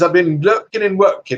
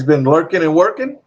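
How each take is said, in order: First: Higher-pitched imitation British accent. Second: Said in the usual way. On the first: Streamer quoting a British viewer back, in an imitation British accent. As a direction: put on a playful British accent. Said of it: "I learned not to do a British accent to him". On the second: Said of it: "not to do a British accent".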